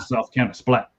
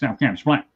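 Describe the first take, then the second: First: It is said in a normal, clear voice. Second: It is said thickly, as if through a full mouth.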